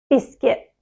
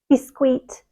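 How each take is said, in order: First: The second syllable sounds like kit. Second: The second syllable sounds like keet. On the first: The speaker calls it right. "It's not, it's biscuit" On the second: The speaker calls it wrong. "the kit, they often say queet"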